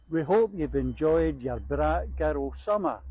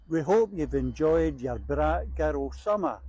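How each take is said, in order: No difference in how they are said.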